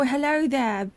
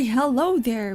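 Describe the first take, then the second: First: It is said in a British accent. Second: It is said in the speaker's normal accent.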